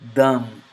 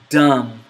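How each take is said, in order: First: The d is an Arabic-style dal. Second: The d is an English-style d. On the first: "that same word with the letter dal" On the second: "with the letter D"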